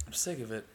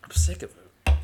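First: Said in the usual way. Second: Much louder blurt of frustration; fed up, loud. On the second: Real, not acted.

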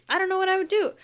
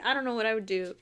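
First: High, loud disbelieving repeat; worked-up bewilderment; exasperated emphasis. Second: Said in the usual way. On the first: Real, not acted. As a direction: throw it out louder and higher, at a loss. Emphatic repeat, imagining being Percy.

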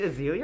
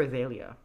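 First: "Azealia" said uh-ZEE-lee-uh; middle syllable as ZEE. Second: "Azalea" said uh-ZAY-lee-uh; middle syllable as ZAY. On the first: Asking co-hosts which name is right, "[name]" as uh-ZEE-lee-uh. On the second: Offering co-hosts the other option, "Azalea" as uh-ZAY-lee-uh. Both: Shown as a demonstration. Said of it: "Is it [name] or Azalea".

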